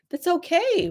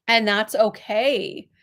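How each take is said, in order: First: That's okay lifted higher, falling gently on okay; reassuring repeat. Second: Said in the usual way. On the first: Shown as a demonstration. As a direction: lift it to comfort her.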